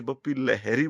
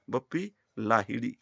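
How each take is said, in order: First: लहरी with short vowels, "LEH-ree"; लहरी squeezed short, ending in plain r; anglicised surname. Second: लाहिड़ी with long first आ and flapped ड़; correct surname. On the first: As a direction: say Bappi लहरी the common English-influenced way. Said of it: "अंग्रेजी की वजह से [name] बोलते". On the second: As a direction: say Bappi लाहिड़ी carefully, "LAA-hi-ree". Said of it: "वो [name] है". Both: Shown as a demonstration.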